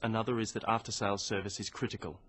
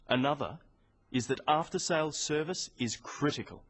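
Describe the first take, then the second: First: It is said in a flat, boring tune. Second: It has stress and falling intonation.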